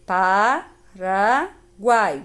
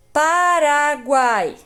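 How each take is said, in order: First: Paraguai as pa... ra... guai with long pauses; split into syllables. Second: Paraguai stretched out loud and higher as one word; slow, emphatic word. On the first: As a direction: sound out Paraguai slowly in three beats. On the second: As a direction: announce Paraguai slowly with long vowels. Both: Shown as a demonstration. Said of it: "Guai fica uma sílaba só".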